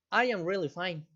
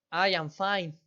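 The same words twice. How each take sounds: First: A mild, sighing, slightly troubled tone. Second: A touch of a smile in the voice, lightly upbeat; teacher shows a friendly reply with a smile. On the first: Teacher demonstrating a sighing, mildly afflicted answer. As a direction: let a little weariness show under the words. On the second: Teacher demonstrating a smiling answer, lightly cheerful. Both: Shown as a demonstration. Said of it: "¿Sí percibieron en qué tono di las respuestas?".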